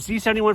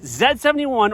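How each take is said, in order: First: The letter Z is said the American way. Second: The letter Z is said the non-American way.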